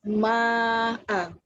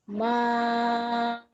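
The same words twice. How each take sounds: First: The vowel is held for two counts. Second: The vowel is held for six counts. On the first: "dua harakat" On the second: "enam harakat"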